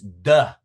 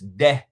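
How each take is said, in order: First: The vowel is a short 'uh' sound. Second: The vowel is not an 'uh' sound. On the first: The speaker calls it right. "It's duh" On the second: The speaker calls it wrong. "I had been pronouncing this de"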